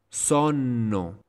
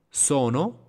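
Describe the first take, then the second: First: Sonno with a long held N; double N. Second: Sono with a short middle N, higher and rising; single N. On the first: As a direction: linger on the middle N of sonno. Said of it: "con doble consonante". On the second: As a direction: keep the N quick in Sono. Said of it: "con una sola consonante". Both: Shown as a demonstration.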